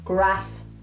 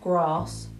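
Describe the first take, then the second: First: The vowel is a short 'a' as in apple. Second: The vowel is a long open 'ah' sound. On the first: "in Birmingham, we say bath, path, grass" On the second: "In RP, you would say words like bath, grass"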